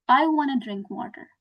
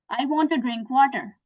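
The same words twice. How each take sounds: First: "wanna" blended into one word; reduced "wanna". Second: Said in the usual way. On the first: Shown as a demonstration. Teacher showing learners the spoken alternative, reduced "wanna". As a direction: run "want to" together as "wanna". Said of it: "I can say it like this". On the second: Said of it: "Instead of saying this".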